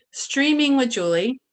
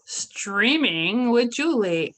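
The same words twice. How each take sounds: First: Loud, high villain announcement; unhinged villain. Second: Slow, drawn-out villain voice; slow villain drawl. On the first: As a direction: boom the title like a villain. Show title repeated louder. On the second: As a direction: drag out the title menacingly. Show title slow, far timbre. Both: Acted.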